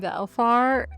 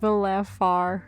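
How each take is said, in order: First: The name is said with two syllables. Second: The name is said with three syllables. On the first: The speaker calls it wrong. "I've been saying his name Valfar" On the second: The speaker calls it right. "and it's Valafar"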